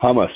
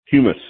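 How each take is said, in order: First: Hummus said as HUH-muh, short u like in hum; unsure pronunciation. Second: Humus said as HYOO-muh, with a yoo sound; unsure pronunciation. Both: Shown as a demonstration. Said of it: "I don't know how to pronounce it".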